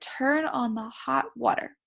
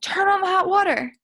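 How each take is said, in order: First: It is said calmly as a plain statement. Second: It is said loudly and excitedly.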